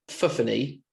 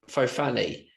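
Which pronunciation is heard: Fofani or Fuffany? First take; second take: Fuffany; Fofani. First: The name is said as Fuffany. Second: The name is said as Fofani. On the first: The speaker calls it right. "it's pronounced Fuffany" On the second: The speaker calls it wrong. "I was calling it Fofani"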